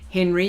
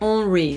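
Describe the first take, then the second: First: The name is said with English pronunciation. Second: The name is said with French pronunciation. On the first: The speaker calls it wrong. "you don't say it like Henry" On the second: The speaker calls it right. "because that sounds very French"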